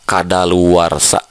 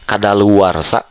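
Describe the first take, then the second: No difference in how they are said.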